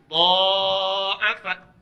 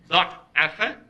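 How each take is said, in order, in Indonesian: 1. Vokal pertama panjang, konsonannya tunggal. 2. Konsonan tengah dobel, vokalnya pendek. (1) "Yang ini pakai alif" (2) "Ini pakai tasydid"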